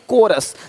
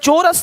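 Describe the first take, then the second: First: The word begins with a k sound. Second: The word begins with a ch sound. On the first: The speaker calls it right. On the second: The speaker calls it wrong.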